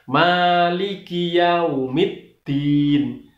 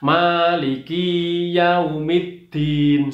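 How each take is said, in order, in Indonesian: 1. Suku kata 'ki' ditahan selama satu ketuk. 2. Suku kata 'ki' ditahan selama dua ketuk. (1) "ki-nya itu satu ketuk. ... Yang benar" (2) "Tidak boleh dua ketuk. ... ini salah"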